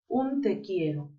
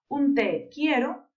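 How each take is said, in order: First: The words run together without pauses. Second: The words are split by short pauses.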